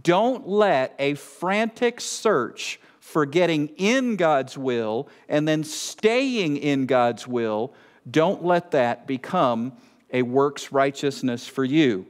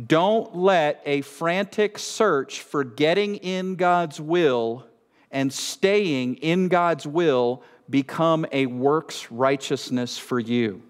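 First: Slower reading, leaning on IN and STAYING; slow, emphatic repeat. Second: Slow, deliberate warning; slow reading. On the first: Preacher rereading the warning so it sinks in, slow, emphatic repeat. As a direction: reread it deliberately, stressing "in" and "staying". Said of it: "Let me read it again as I said I would". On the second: Preacher reading a warning to the congregation, slow reading. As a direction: read it out slowly, weighing each phrase. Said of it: "I wanna read this slowly". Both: Real, not acted.

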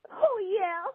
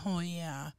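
First: High-pitched "oh, yeah" whoop; mustered-up catchphrase cheer. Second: Softly quoted "oh, yeah"; subdued echo of cheer. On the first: Pretend. Caller signing off to the hosts after a hard message, mustered-up high cheer. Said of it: "how you mustered up a "oh, yeah". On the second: Retold or imitated. Host marveling to the caller after that call, softly echoed cheer. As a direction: repeat the caller's cheer softly, without the whoop. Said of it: "how you mustered up a".

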